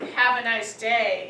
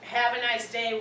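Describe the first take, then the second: First: It is said in an insulting tone. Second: It is said in a neutral, thoughtful tone.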